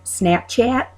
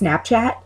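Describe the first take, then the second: First: It is said with an Illinois-sounding vowel. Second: It is said with a Long Island vowel.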